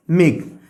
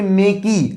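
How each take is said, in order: First: मेक ending cleanly on the K; silent final E. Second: मेकी with the final E sounded as "ee"; wrong pronunciation. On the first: Teacher reading the spelled example, मेक with silent E. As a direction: say मेक as one syllable, E silent. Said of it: "यहाँ पे ये silent हो रहा है". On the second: Teacher showing what we don't say, मेकी with sounded E. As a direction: say मेकी in two syllables, MAY-kee. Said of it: "हम नहीं कर रहे हैं कि मेकी". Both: Shown as a demonstration.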